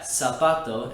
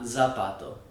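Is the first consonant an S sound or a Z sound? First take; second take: S sound; Z sound. First: It begins with a hissing s sound. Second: It begins with a buzzing z sound. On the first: The speaker calls it right. "is pronounced like that" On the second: The speaker calls it wrong. "and not"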